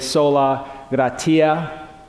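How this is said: It is pronounced in a continental European style.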